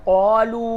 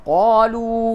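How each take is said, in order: Both takes have the same delivery.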